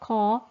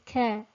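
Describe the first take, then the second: First: The k sounds heavy, with a narrowed throat. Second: The k sounds light, with a thin tongue. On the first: The speaker calls it wrong. "making it into a thick letter. So it's not caw" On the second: The speaker calls it right. "it's care"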